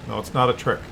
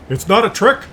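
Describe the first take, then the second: First: Said in the usual way. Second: Higher and a bit louder, half-mocking; lightly voiced manager soothing the worried barista; mock manager reassurance. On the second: Manager quote then own repeat.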